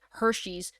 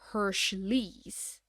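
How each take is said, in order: First: The name is said without any L sound. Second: The name is said with an added L sound. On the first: The speaker calls it right. "I know it's the correct way, but it sounds stupid to me" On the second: The speaker calls it wrong. "for many years I thought it was Hershey's. Um it turns out there's no L"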